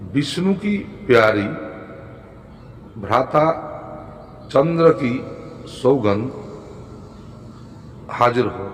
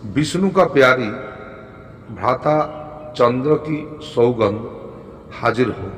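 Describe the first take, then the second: First: Spaced-out, dictation-like recital; phrase by phrase, unhurried. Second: Measured recital in short phrases; deliberate, falling to a close; mantra recitation. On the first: Repeats mantra slowly for learners. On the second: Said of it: "মন্ত্রটি হলো". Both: Shown as a demonstration.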